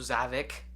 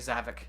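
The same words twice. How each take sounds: First: The final 'ik' is pronounced with exaggerated force. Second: The final 'ik' is pronounced lightly and relaxed. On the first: This is how some other people say it. The speaker calls it wrong. "over pronunciate the I K the way some people do" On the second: This is how the speaker says it. The speaker calls it right. "I say Zavik"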